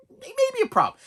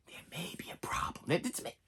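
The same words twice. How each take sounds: First: Suddenly very high, mock-alarmed squeak; high-pitched worry. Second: Very soft, voiceless whisper; creeping doubt whisper. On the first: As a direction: leap way up in pitch, playing worried. Same thought again, squeaked. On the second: Acted. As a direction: whisper it like a nagging thought. Creeping worried thought mid-movie.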